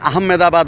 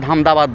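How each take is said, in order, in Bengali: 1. নামটি 'Ah' ধ্বনি দিয়ে শুরু। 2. নামটি 'Ham' ধ্বনি দিয়ে শুরু। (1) "ওরা আহমেদা উচ্চারণ করে না" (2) "স্থানীয় লোকরা হামদাবাদ বলে ডাকে"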